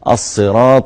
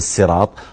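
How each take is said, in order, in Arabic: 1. تبدأ الكلمة بصوت سين مفخمة. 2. تبدأ الكلمة بصوت سين مرققة. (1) "بالصاد" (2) "وليس بالسين"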